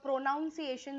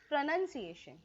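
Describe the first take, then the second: First: The first syllable is said as a full 'pro'. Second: The first syllable is said as a reduced 'pruh'. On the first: The speaker calls it wrong. "जसं आपण म्हणतो ते चुकीचं आहे" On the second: The speaker calls it right. "According to the Indian accent it is प्रनन्सिएशन"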